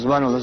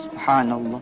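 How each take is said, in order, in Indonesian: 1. Diucapkan sangat cepat. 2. Diucapkan pelan dan dinikmati. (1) "coba aja lu ngebut bacanya"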